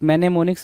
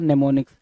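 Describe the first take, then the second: First: The word begins with a sounded M. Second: The word begins with an N sound. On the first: This is how the word is written. "मैनेमोनिक्स लिखोगे" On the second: This is how the word is read aloud. "लेकिन पढ़ोगे क्या, नेमोनिक्स। ... एम silent हो जाता है"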